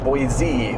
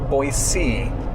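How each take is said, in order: First: The middle consonant is a z sound. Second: The middle consonant is an s sound. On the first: It marks the speaker as being from California. The speaker calls it wrong. "by saying it with a Z" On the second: This is how locals say it. The speaker calls it right. "A C as in the ocean"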